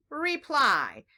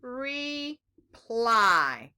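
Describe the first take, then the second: First: "Reply" joined in one go, falling at the end; blended word. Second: "Reply" split in two, re, pause, long ply; syllable by syllable. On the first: Teacher leading children through a two-syllable word, blended word. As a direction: blend "Reply" without a gap. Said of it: "Can you say that with me?". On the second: Teacher leading children through a two-syllable word, syllable by syllable. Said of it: "The first syllable is". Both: Shown as a demonstration.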